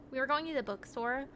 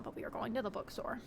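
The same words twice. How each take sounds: First: Said in the usual way. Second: Quiet, hushed confession; secretive hush. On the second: Real, not acted. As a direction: lower it like a secret. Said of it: "don't tell my mom".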